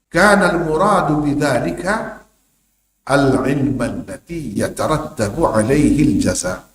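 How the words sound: There is a pause after the middle word. The noun is the predicate of the sentence. "Kena koma situ. Macam ada koma"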